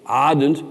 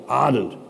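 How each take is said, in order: First: Said in the usual way. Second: Savoured. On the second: Shown as a demonstration. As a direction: linger fondly on ardent. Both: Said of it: "I, I like that one".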